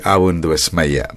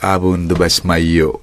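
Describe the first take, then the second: First: The phrase ends with an 'ah' vowel. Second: The phrase ends with an 'oh' vowel. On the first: This is the East Syriac form. "in the Syro-Malabar, Chaldean, East Syriac tradition, we say" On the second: This is the Antiochian form. "In the Antiochian tradition, I think they say"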